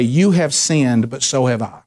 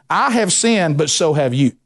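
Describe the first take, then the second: First: Humble confession. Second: Arrogant retort. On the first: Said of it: "Humility is when you go to someone and say". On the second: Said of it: "See, that's arrogance". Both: Shown as a demonstration.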